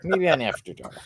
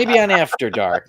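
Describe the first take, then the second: First: Said in the usual way. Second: Laughing. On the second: Real, not acted. Joke said twice, first laughing.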